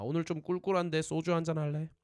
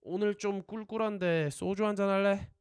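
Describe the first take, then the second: First: Said in the usual way. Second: Teacher's model phrase. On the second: Shown as a demonstration. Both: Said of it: "repeat after me".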